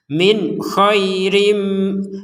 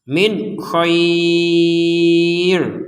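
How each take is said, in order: First: It runs on with a softened nasal ending. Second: It stops with a long vowel held six beats. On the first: The reader continues into the next phrase. "maka dibaca dengan samar" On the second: The reader stops here. "Kenapa enam harokat? Karena kita berhenti"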